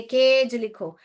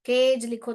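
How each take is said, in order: First: केज said louder with a falling tone; dictating to children. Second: Said in the usual way. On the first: Shown as a demonstration. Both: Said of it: "हम बच्चों को बोलेंगे".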